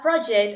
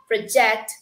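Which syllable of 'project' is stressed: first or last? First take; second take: first; last. First: The stress is on the first syllable. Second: The stress is on the last syllable. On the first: It is a task given to someone. "it is like a kind of task" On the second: It means showing something to someone. "we are stressing at the end"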